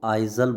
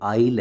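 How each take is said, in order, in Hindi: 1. s का उच्चारण z जैसा होता है। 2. s साइलेंट है। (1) "कई बच्चे इसको आइजल बोलते हैं, आइजल नहीं है ये" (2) "आइल है।"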